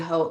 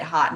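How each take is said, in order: First: The word sounds like 'oat' with a long vowel. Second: The word sounds like 'hot' with a short vowel. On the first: This is the traditional way to say the word. "if you're going by like the traditional pronunciation, it'd be haute" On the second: This is how the maker probably says the name. "the person who who who made it probably pronounces it hot knits"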